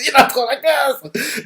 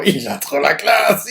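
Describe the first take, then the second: First: Much higher, slow, gushing; excited squeal. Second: Laughs through the words, slow; laughing gush. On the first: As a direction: let the admiration spike up high. Repeats it, fangirling harder. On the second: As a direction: chuckle out your admiration, unhurried. Gushing over the character. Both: Real, not acted.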